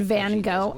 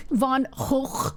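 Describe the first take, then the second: First: Said in the usual way. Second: "Gogh" with a throaty, rasped final consonant; guttural Gogh. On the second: Shown as a demonstration. Streamer playing with the painter's name, guttural "Gogh". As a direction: end "Gogh" on a back-of-throat Dutch-style ch.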